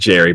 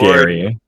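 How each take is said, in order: First: The name begins with a soft J sound. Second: The name begins with a hard G sound. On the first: The speaker calls it wrong. "It's not Jerry" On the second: The speaker calls it right. "the G is pronounced as the G in in in GIF"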